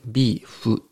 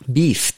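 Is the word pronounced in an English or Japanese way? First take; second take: Japanese; English. First: It is pronounced with Japanese-style sounds. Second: It is pronounced with English-style sounds. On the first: The speaker calls it right. "ちょっと発音が日本語っぽいですけど" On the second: The speaker calls it wrong. "ビーフとは言わなくて"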